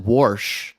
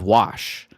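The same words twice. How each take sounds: First: The word is said in a Baltimore accent. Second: The word is said in a general accent. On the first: "my mom is from the the Baltimore, Maryland area, and so she says she says wash" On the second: "instead of"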